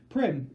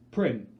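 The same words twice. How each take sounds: First: Louder, higher cry of Prim; desperate shout. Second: A sudden loud, choked cry of her sister's name; strangled cry. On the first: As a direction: shout her name as you move. Calling her sister again. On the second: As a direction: call out Prim as the voice cracks free. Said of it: "The strangled cry comes out". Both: Acted.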